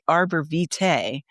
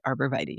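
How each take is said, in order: First: Vitae is given the rarer, affected-sounding pronunciation. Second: Vitae is given the common, everyday pronunciation. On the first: It sounds a bit affected but is not incorrect. "V I T A E can actually be pronounced that way" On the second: This is how most people say it. "Most people, it's true, say arborvitae"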